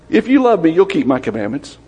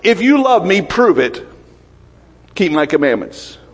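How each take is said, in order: First: It is said in a gentle, loving tone. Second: It is said in a threatening, demanding tone.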